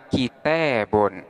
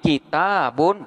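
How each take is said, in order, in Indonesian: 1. Vokal panjangnya condong ke bunyi e. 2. Vokal panjangnya adalah bunyi a terbuka.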